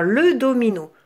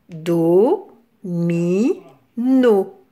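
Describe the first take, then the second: First: Said in the usual way. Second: "Do, mi, no" with a pause after each; three separate, held beats on "Do, mi, no"; split into syllables. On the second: Shown as a demonstration. Teacher counting three syllables for children, "Do, mi, no" separated. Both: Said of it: "Trois syllabes".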